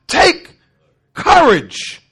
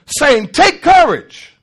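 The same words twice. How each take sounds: First: Breathy, unvoiced "Take" then a firm "courage."; emphatic slow. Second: Said in the usual way. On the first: Shown as a demonstration. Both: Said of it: "Take what?".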